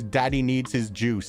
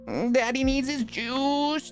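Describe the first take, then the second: First: It is said in a plain, normal voice. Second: It is said in Shane's put-on cringey voice.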